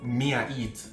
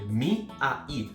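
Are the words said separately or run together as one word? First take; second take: run together; separately. First: The words are run together as one word. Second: The words are said separately and clearly.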